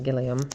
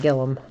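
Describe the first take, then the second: First: The name is said with three syllables. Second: The name is said with two syllables. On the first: "not Gilliam" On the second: "pronounced it Gillum"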